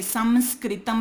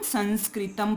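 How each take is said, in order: First: संस्कृतम with a full m sound in the middle; wrong m reading. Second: संस्कृतम with a nasal n in the middle and m at the end; correct nasal reading. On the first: Teacher showing students the wrong reading of संस्कृतम. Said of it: "नहीं पढ़ेंगे". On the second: Teacher giving students the right reading of संस्कृतम. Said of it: "संस्कृतम नहीं पढ़ेंगे". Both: Shown as a demonstration.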